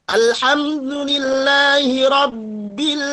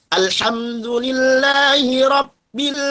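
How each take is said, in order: The two takes are said the same way.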